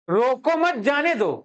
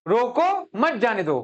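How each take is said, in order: First: "रोको मत" run together, then "जाने दो"; group मत with रोको, stressing मत; pause after मत. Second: Stressed "रोको", break, then "मत जाने दो"; group मत with जाने दो; pause after रोको. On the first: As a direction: say "रोको मत" as one unit, slowly. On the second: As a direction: punch रोको alone, then pause before मत. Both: Shown as a demonstration. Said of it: "grammar की बात है इसमें".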